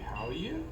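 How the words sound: The voice rises at the end. The speaker calls it wrong. "If we go with an uptone, it would be"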